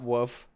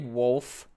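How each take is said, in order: First: The word is said without an L sound. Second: The word is said with a clear L sound. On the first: The speaker calls it wrong. "not woof" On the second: The speaker calls it right. "say wolf"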